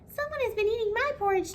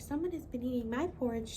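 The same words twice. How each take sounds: First: The voice is high, thin and squeaky. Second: The voice is quiet, soft and gentle. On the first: "Baby Bear cried with his squeaky little voice" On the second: "She whispered in her quiet, gentle voice"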